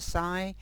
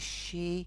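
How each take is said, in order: First: The word sounds like 'sigh'. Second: The word sounds like 'shee'. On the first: The speaker calls it wrong. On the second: The speaker calls it right.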